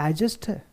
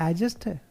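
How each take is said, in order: The two takes are said the same way.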